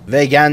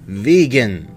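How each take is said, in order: First: The first vowel sounds like 'e' in bet. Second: The first vowel sounds like 'ee' in see. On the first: The speaker calls it wrong. "وگن نه" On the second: The speaker calls it right. "خواننده [name]"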